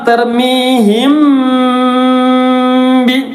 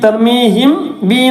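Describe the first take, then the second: First: The m is hidden with a nasal hum before b. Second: The m is pronounced clearly before the b. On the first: The speaker calls it right. "മറച്ച് മണിക്ക" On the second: The speaker calls it wrong. "തർമീഹിം ബി എന്ന് പറയാൻ പാടില്ല"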